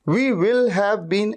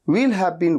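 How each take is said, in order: First: We and will are said as two full words. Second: We and will are contracted into one syllable. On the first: The speaker calls it wrong. "ऐसे ना वी विल have been ऐसे नहीं कहते" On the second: The speaker calls it right. "वी विल को contract कर देते हैं"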